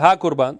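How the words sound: It is said as two separate words. An oath is sworn by the life of the sacrifice. "двумя словами"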